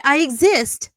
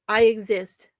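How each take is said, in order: First: "exist" punched louder and higher; "I exist" thrown out loudly with sarcastic stress on "exist"; sarcastic emphasis. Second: Said in the usual way. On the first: Acted. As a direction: hit "exist" hard with mock outrage. Sarcastic self-defence.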